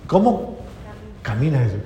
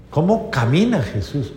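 No difference in how they are said.

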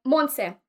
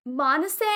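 First: "Monse" as MON-seh, two syllables; correct name. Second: "Monse" stretched to MON-uh-say, questioning; unsure attempt at "Monse" with an extra syllable; wrong name. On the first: Retold or imitated. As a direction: say "Monse" firmly, ending in a short "seh". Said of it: "I finally corrected somebody". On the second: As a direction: mangle "Monse" as MON-uh-say, rising. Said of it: "I didn't say it right".

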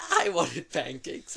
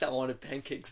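First: I wanted pancakes stretched out slowly and louder, with a laugh; emphatic craving. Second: Said in the usual way. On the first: Shown as a demonstration. Recalling a childhood bribe, slow and emphatic. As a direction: lean hard on I wanted pancakes as if starving for them. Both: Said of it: "but bad".

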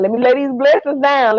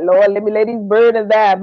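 First: Blessings said higher, brighter than burdens; bright hopeful prayer. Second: Said in the usual way. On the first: Retold or imitated. To herself at bedtime, a raised hopeful prayer. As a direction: lay these blessings down with lift. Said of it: "Baby, I be going to bed talking about". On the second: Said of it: "I used to go to bed and be like".

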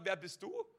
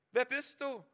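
First: "Wer bist du" as a question, lifting on "du"; questioning rise. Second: "Wer" stressed and higher, falling through "bist du"; insistent repeated question. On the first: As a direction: ask it openly, voice rising at "du". Voices Moses' question, then repeats it. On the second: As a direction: hit "Wer" high, then let "du" fall. Repeats Moses' question with more force. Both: Acted.

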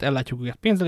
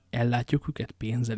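First: Said in the usual way. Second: Slow echo of another's words; echoing repetition. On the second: A narrator's reading. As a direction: repeat it back slowly and evenly. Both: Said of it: "ismételte Athos".

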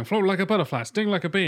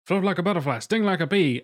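First: Higher, bouncier take on the same line; Will Smith doing Ali, pitched up; mock movie-star version of the boxer line; imitating Will Smith. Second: A light take on the champ's rhythm, higher; lightly voiced boxer quote; imitating Muhammad Ali. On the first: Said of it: "play Will Smith going". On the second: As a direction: quote the boxer's line his way. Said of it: "Muhammad Ali".

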